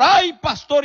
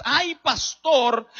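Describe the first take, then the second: First: Loud whiny "Ay, pastor" pitched up; pleading churchgoer. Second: Mocking whine. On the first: Retold or imitated. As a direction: call out "Ay, pastor" like a begging member. (feligrés suplicante, "Ay, pastor" alto y fuerte) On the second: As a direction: stretch "ay, pastor" out with mock weariness. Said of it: "y todo es". ("ay, pastor" lento y burlón, arrastrado)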